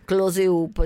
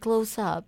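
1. Si pronuncia in modo italianizzato. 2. Si pronuncia in modo inglese americano. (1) "non è che dici"

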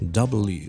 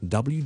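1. 字母名称读得较慢。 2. 字母名称读得较快。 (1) "咁就會聽落去就變咗W" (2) "再快少少咧就變W"

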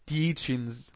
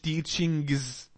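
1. غنة بس، من غير g. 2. بينطق صوت g قوي بعد الغنة. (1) "قلت ايه teachings حرف الجي لما يكون قبليه ان حرف الجي ما ننطقوش وننطق ايه غنه" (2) "ما قلتش teachings"

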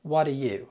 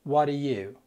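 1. الكلمات تتداخل بسرعة وتُختصر. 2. الكلمات تتداخل بسرعة وتُختصر.

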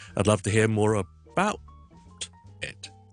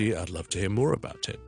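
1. 音高变化落在 about 这个词上。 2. 音高变化落在 more 这个词上。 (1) "所以咧，我哋唔会咧" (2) "more 系高音，about it 就全部都低音。So 听住"

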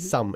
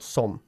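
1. La vocal es un sonido inglés que no existe en español. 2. La vocal es una vocal sencilla al estilo español. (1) "Es un sonido de vocal que no existe en castellano" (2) "y no some"

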